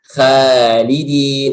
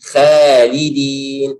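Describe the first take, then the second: The two takes are said the same way.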